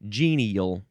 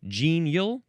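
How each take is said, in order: First: The word is said with three syllables. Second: The word is said with two syllables. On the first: "you can pronounce it with two or three syllables" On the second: "you can pronounce it with two or three syllables"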